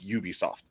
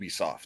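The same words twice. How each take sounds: First: The first vowel sounds like 'you'. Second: The first vowel is not a 'you' sound. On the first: The speaker calls it right. "It's literally a U" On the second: The speaker calls it wrong. "That's not a word"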